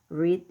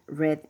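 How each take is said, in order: First: It is said as the present tense form. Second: It is said as the past tense form.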